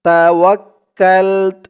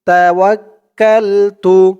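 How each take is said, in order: First: The word ends on the 't' consonant. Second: The word ends with a final 'u' vowel. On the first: The reader stops at this word. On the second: The reading continues without stopping here.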